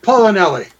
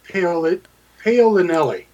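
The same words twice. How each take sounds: First: The name sounds like 'Paula Nelly' run together. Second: The name is said with a separate O sound. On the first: The speaker calls it right. "There you go. You got it" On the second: The speaker calls it wrong. "Please tell me I was close"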